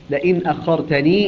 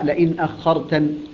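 First: The last word ends with a long ee vowel. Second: The last word ends without a long ee vowel. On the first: The reading continues into the following words. "يقرأها بالإثبات، بإثبات الياء" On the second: The reading stops on this word. "أما إذا وقف عليها يقرأها"

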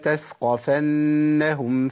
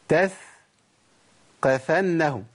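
First: The th is light and the qaf single. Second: The qaf is doubled and held. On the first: The speaker calls it right. "خلاص اتفقنا" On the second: The speaker calls it wrong. "انا كده ضعفت القاف"

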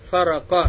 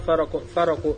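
First: The word ends with an 'a' vowel. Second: The word ends with an 'u' vowel. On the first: "Можно прочитать Фарака" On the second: "можно прочитать Фараку"

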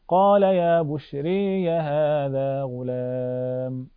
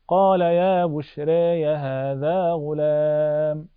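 First: The long a is strongly tilted toward e. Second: The long a is only slightly tilted toward e. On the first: "ثم بالإمالة لأبي عمرو" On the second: "نقرأ بالتقليل لورش"

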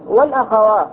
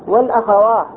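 The two takes are said the same way.

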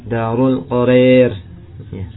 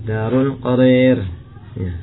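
The two takes are said the same way.

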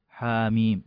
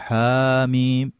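First: The vowel after the first letter is kept short. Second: The vowel after the first letter is drawn out long. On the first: The speaker calls it right. "لا حركة واحدة حاميم" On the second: The speaker calls it wrong. "ما نقول حاميم"

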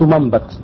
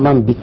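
First: The middle consonant takes an a vowel. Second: The middle consonant takes an i vowel. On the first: This is the form the rule predicts. The speaker calls it wrong. "نبت ينبت منبت" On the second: This is the form actually heard in usage. The speaker calls it right. "لكن سمع منبت بالكسر على خلاف القياس"

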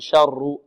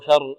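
First: The r sound is rolled several times. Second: The r sound is light and thin. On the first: "لا نقول شر، شر تتكرر" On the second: "شر مرقة الراء"

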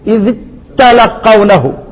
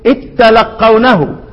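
First: The dh is heard before a doubled t. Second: The dh merges fully into a doubled t. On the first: "حننطق الايه الذال والتاء تنطق مشددة" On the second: "من ادغم يقرأها ايه"

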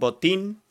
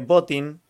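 First: It sounds like the Spanish word for football boot. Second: It sounds less like the word for football boot. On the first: "suena a botín de fútbol" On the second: "lo voy a pronunciar así, así no suena tan a fútbol"

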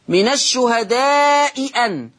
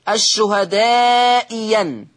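First: The second hamza is a glottal stop. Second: The second hamza becomes a y sound.

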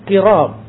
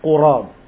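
First: The first vowel is an 'i' sound. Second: The first vowel is an 'u' sound. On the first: This is a less common alternative reading. "dibacanya dengan kasrah" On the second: This is the more widely known reading. "Kalimat qurab didhammahkan di huruf qaf"

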